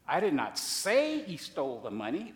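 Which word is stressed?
say. The stress is on the word say.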